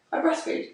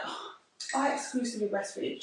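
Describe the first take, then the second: First: Said in the usual way. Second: Understated mock self-important announcement; mildly put-on bragging, a touch quieter; mock boasting. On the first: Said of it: "I said". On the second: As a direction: imitate someone making a point of it. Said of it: "never turned to somebody and was like".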